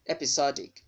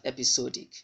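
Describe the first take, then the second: First: "Episodic" as "ep-i-SOD-ik", open short O; stressed "SOD" with an "aw" vowel in "Episodic"; correct pronunciation. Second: "episodic" with a long O, "ep-i-SOH-dik"; wrong pronunciation. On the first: Teacher modelling the right word for learners, correct pronunciation. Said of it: "there will sound as O". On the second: Teacher showing the mistake to avoid, wrong pronunciation. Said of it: "not episodic". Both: Shown as a demonstration.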